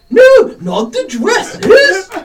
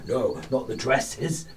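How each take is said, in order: First: It is said in an imitation of another voice. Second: It is said in the speaker's own normal voice.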